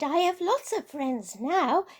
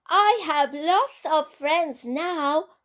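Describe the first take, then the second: First: It is said at normal volume. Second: It is said very loudly.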